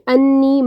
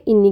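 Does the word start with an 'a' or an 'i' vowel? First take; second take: a; i. First: The word starts with an 'a' vowel. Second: The word starts with an 'i' vowel. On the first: The speaker calls it right. "वो है रब्बी अन्नी मगलूबुन फंतसिर" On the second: The speaker calls it wrong. "मैंने गलती से इन्नी कह दिया था"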